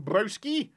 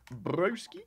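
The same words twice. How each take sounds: First: Said in the usual way. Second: Broski? repeated softer with a questioning rise; puzzled echo. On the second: Shown as a demonstration. Streamer puzzling over a viewer's word, quizzical.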